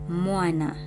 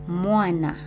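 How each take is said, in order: The two takes are said the same way.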